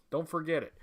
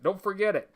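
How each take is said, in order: First: A soft, lower aside; softer echo. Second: Said in the usual way. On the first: Acted. Host echoing the motto to his chat, softer. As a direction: murmur it again under the breath.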